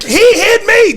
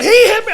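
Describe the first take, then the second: First: High and loud desperate yell; protest cry. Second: High, loud desperate yell; protest cry. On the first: Wrestler crying out to officials, loud protest. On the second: Wrestler dragged out, crying out in protest. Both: Retold or imitated. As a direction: plead loudly that you were hit.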